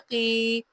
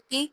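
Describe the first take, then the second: First: The vowel is drawn out long. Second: The vowel is said short and quick. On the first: "क़ाफ़ ज़ेर या की ... आवाज़ जो है वो लंबी हो जाएगी" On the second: "क़ाफ़ ज़ेर की"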